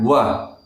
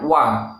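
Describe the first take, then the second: First: The wa is heavy with extra breath. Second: The wa is light without extra breath. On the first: The speaker calls it wrong. "dibaca dengan tebal, wa dengan angin" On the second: The speaker calls it right. "Yang benar"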